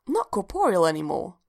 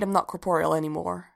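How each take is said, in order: First: "Not corporeal anymore" echoed as a puzzled question. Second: Said in the usual way. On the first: A narrator's reading. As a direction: query "corporeal" with a lifted, questioning tune. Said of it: "asked Evie". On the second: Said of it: "she said".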